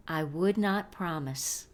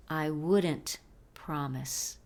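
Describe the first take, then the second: First: Said in the usual way. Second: "wouldn't" as one word, "WOOD-ent", then "promise"; contracted form. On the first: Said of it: "entre las palabras would y not". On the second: Shown as a demonstration. Teacher models the negative contraction for learners, slow and careful. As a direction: slowly model "wouldn't" in place of "would not". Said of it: "formar una contracción negativa".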